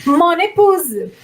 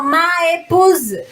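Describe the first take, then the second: First: "Mon épouse" linked as "mo-népouse"; smooth N link in "Mon épouse"; joined by liaison. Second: "Ma épouse" with MA and the E as two separate clashing vowels; slowly, no linking consonant in "Ma épouse"; vowel against vowel. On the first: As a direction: slowly carry the N of Mon into épouse. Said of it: "Pra poder juntar". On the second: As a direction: hiatus between Ma and épouse. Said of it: "Pra não dar ali vogal com vogal". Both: Shown as a demonstration.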